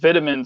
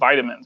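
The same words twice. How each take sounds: First: It is said in a British accent. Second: It is said in an American accent. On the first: "why do you call them vitamins" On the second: "we call them vitamins"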